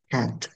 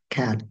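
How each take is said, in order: First: The final t sound is clearly released. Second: The final t sound is barely heard. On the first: The speaker calls it right. "So dapat pala cat" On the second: The speaker calls it wrong. "siguro ang pagkaka-pronounce ko kasi cat"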